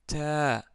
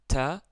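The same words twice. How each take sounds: First: The vowel is long. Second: The vowel is short. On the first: "le son devient plus long" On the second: "on prononce la lettre ta"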